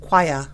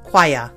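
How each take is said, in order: First: It is said in a British accent. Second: It is said in a British accent.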